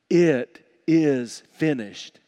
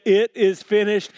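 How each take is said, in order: First: Slow, emphatic quotation; slow and deliberate, each word set apart; solemn quote. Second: Raised, loud preacher's quote; ringing, emphatic quotation; forceful proclamation. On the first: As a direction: weigh each word heavily. Quoting Jesus' words on the cross. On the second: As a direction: proclaim it with full conviction. Preaches Jesus' words, second time. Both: Retold or imitated.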